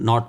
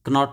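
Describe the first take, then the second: First: The word starts with n, k is silent. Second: The k sound is pronounced before the n. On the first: The speaker calls it right. "नॉट बोलते हैं" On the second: The speaker calls it wrong. "नॉट नहीं बोलते"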